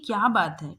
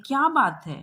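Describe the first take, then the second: First: Said in the usual way. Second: Asking what's wrong. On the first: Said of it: "संवाददाता आके पूछते हैं कि". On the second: Acted. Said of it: "और पूछते हैं".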